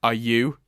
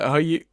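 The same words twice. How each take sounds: First: The voice is steady and confident. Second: The voice cracks and sounds unsure.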